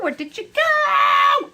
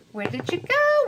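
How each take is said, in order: First: Higher, louder, slow playful call; mock calling out. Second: Higher, lilting question to a lost piece; puzzled search. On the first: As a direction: call out after the runaway potato. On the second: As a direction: ask the runaway potato where it went. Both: Real, not acted. Hunting for a dropped potato.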